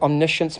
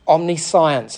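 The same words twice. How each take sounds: First: The ending is said as 'shence', run together. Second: The ending is said like the word 'science'. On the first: The speaker calls it right. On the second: The speaker calls it wrong.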